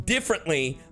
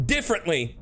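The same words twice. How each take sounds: The two takes are said the same way.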